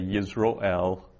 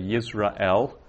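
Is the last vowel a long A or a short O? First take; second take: short O; long A. First: The last syllable has a short O vowel. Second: The last syllable has a long A vowel. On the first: "with a short O" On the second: "with a long A"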